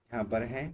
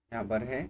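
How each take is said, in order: Both takes have the same delivery.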